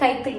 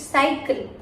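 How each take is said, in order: First: The first C is said as a K sound. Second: The first C is said as an S sound. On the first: The speaker calls it wrong. "It's not Kaikil" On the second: The speaker calls it right. "it's cycle... K sound has changed to is sound"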